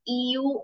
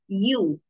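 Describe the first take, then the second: First: The word begins with an 'ee' sound. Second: The word begins with a 'y' sound. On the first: The speaker calls it wrong. "It's not E U" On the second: The speaker calls it right. "it's you. It's pronounced as you"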